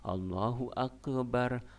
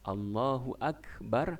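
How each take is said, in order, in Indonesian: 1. K di Akbar dikolkol, ada gema. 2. K di Akbar polos, tanpa kolkol. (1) "tidak boleh ... dikolkolah tidak boleh" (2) "begitu kita lafaz Allahu Akbar"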